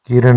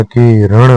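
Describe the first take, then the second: First: किरण said briefly; incorrect form. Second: किरण slow with retroflex n; correct form. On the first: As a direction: keep किरण short and quick. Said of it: "नहीं होता". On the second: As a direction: stretch किरण as "ki-ran". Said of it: "होता है". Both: Shown as a demonstration.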